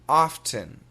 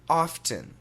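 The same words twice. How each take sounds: First: Careful, fully articulated American accent. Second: The same.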